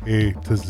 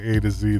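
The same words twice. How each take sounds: First: The letter Z is said the British way. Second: The letter Z is said the American way. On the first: "they say A to Z" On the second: "They don't say A to Z"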